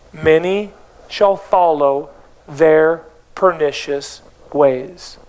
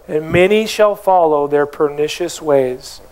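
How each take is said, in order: First: Slow, low, drawn-out reread, relishing "pernicious"; low, dragged-out savoring of the verse. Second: Said in the usual way. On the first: Shown as a demonstration. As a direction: linger on every word with relish. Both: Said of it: "And I love verse two".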